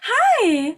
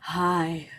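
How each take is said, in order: First: It is said in a high, bright voice. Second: It is said in a low, flat voice.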